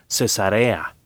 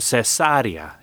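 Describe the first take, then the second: First: The stress is on the third syllable. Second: The stress is on the second syllable. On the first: The name of cities named to honor Caesar. "El nombre de estas ciudades no lleva acento, así que se pronuncia Cesarea" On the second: A surgical operation used in difficult births. "esa palabra lleva acento en la antepenúltima sílaba"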